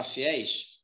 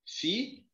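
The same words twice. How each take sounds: First: Said in the usual way. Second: "Fiéis" partido em fi... éis, com pausa longa; separação silábica. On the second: Shown as a demonstration. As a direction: separe bem as duas sílabas de "Fiéis". ("Fiéis" sílaba por sílaba, o fi suspenso em tom de subida) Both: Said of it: "vamos separar fiéis".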